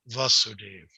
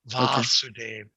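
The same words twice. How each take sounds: First: The first vowel is short. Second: The first vowel is long. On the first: It refers to Krishna's father. "as opposed to" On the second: It refers to Krishna, the son. "It's a long A"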